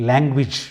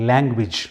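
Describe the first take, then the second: Both takes have the same delivery.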